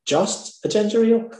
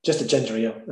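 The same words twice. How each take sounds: First: Higher, questioning echo of the order; incredulous waitress. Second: Said in the usual way. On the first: Retold or imitated. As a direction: imitate a waitress querying the order in disbelief. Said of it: "And that's what she said". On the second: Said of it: "And I says".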